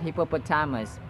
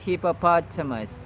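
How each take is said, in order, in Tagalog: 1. Wala sa una at ikatlong pantig ang diin. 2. Nasa una at ikatlong pantig ang diin. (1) "It's not hippopotamus" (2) "The stresses or the emphases are on the first and third syllables"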